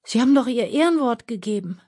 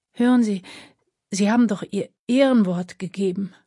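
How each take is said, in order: First: High, pained plea; dismayed, high-pitched reproach; moaning. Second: Urgent, distressed plea; raised, agitated reproach; trembling.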